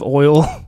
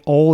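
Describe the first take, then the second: First: The word is said with a standard accent. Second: The word is said with a Southern accent. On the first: "instead of oil" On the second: "like Southern thing, sort of like saying oil"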